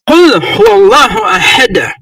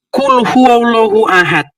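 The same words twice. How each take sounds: First: The final d of ahad bounces audibly. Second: The final d of ahad ends flat. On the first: The speaker calls it right. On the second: The speaker calls it wrong. "bacanya bukan"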